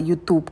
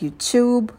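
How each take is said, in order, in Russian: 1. Начинается с обычного звука t. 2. Начинается со звука ch.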